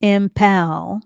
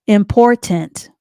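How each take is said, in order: First: "Impal" for important, ending swallowed; deliberate mispronunciation. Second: IMPORTANT said loudly, slowly and clearly; careful pronunciation. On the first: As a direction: botch important on purpose as a loud, clear "Impal". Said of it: "I'm gonna mispronounce the word". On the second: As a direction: pronounce "Important" in full, slow and loud. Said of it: "I'm gonna say the word". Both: Shown as a demonstration.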